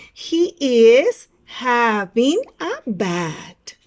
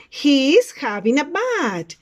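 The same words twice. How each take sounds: First: Very slow and loud, each word separated; word-by-word model sentence. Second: Slow, loud teacher's model; model sentence for repeating. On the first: Teacher repeats the picture's sentence, very slow word-by-word delivery. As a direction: stretch out every word for learners. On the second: Teacher reads out a picture's sentence, slow model delivery. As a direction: say it slowly and firmly for learners. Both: Shown as a demonstration. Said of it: "Repeat after me".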